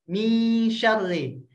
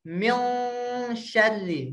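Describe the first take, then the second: First: "Mi syarri" slowly, nasal thin and bright; light ikhfa. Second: "Min syarri" with a thick, dark nasal; the wrong heavy reading of "syarri"; heavy ikhfa, wrong way. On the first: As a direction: keep "syarri" light, not heavy. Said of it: "mi syarri tipis". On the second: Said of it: "Ibu jangan bacanya tebal". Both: Shown as a demonstration.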